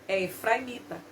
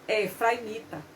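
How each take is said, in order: The two takes are said the same way.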